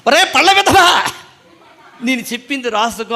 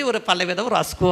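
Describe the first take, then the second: First: High, loud mock scolding of a pupil; scolding teacher. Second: Said in the usual way. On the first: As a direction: bark it like an angry schoolmaster, half laughing. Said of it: "మా master గారు, Christopher అయ్య గారు". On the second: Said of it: "నేను వ్రాయలేదు కాబట్టి".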